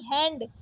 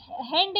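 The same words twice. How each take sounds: First: Said in the usual way. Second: हैंड said "hend", closed e; wrong vowel. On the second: Shown as a demonstration. Teacher rejecting a spelling, हैंड with plain e. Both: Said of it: "हैंड नहीं".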